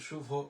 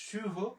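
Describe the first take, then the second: First: The first vowel is relaxed and less sharp. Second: The first vowel is said sharper and tenser. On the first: Listeners could not tell which word was meant. The speaker calls it wrong. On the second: Listeners easily understood which word was meant. The speaker calls it right.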